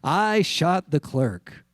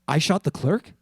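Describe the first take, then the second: First: It is a flat statement, falling at the end. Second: It is a bewildered question, rising at the end.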